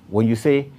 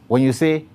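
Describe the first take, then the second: The two takes are said the same way.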